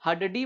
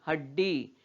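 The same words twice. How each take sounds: First: हडडी as 'ha-da-dee', three syllables; wrong full-letter reading. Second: हड्डी as 'had-dee' with a held ड; half consonant. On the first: Teacher showing what we don't say, 'ha-da-dee'. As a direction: give the first ड of हडडी its own vowel. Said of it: "हडडी बोलते हैं क्या इसको?". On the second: Teacher modelling the word for children, हड्डी as 'had-dee'. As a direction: stop on the half ड, then release डी. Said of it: "नहीं". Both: Shown as a demonstration.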